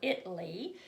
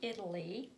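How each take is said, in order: First: It is said in a relative's different pronunciation. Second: It is said in the speaker's usual pronunciation.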